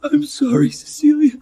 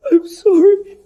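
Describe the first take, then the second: First: Tearful, voice cracking apology; breaking down crying. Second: High, louder sobbing cry; sobbing wail. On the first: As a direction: cry through the apology. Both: Acted. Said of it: "Alexander broke down".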